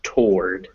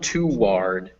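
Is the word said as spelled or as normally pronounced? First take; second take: as pronounced; as spelled. First: It is said with its usual spoken pronunciation. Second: It is said following its spelling. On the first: The speaker calls it right. "but it's pronounced toward" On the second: The speaker calls it wrong. "it's spelled toward"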